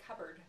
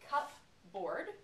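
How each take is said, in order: First: One blended word with a reduced second part. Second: Two separate words, each fully pronounced. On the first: "when I put it together" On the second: "saying the bases separately"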